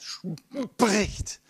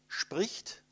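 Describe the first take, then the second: First: The word is drawn out to about ten times longer. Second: The word is spoken quickly in one short burst. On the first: "Das war ungefähr die zehnfache Zeit" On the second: "dann habe ich dafür 40 Millisekunden gebraucht"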